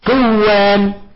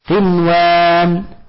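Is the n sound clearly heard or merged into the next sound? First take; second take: merged; clear. First: The n merges into the following w sound. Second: The n is pronounced clearly before the w. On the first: The speaker calls it wrong. "فلا يجوز لك أن تقول" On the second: The speaker calls it right. "إنما تقرأ بها مظهرة"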